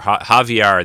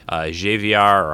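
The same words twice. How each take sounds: First: The name begins without an English J sound. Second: The name begins with an English J sound. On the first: The speaker calls it right. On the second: The speaker calls it wrong.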